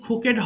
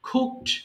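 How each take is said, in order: First: The ending is said as an extra syllable. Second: The word is said as one syllable. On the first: The speaker calls it wrong. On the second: The speaker calls it right.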